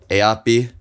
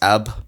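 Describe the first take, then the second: First: The word is said with all its syllables. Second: The word is said cut down to one syllable. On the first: This is formal speech. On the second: This is fast informal speech.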